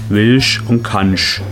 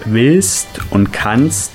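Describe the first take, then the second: First: The words end in an sh sound. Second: The words end in an st sound. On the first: "das st ist immer ein sch" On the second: "das st ist immer ein sch"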